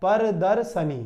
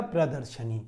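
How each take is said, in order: First: प्रदर्शनी said as पर्दर्शनी, r moved after the p, plain s not श; wrong pronunciation. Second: प्रदर्शनी with a clear प्र cluster and श, lower and softer; correct pronunciation. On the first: Teacher showing students the wrong way, पर्दर्शनी with s. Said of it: "उच्चारण इसका कैसा हो रहा है?". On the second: Teacher giving students the correct प्रदर्शनी, lower and softer. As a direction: say प्रदर्शनी carefully as प्र-द-र्श-नी. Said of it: "option number D बिल्कुल सही". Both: Shown as a demonstration.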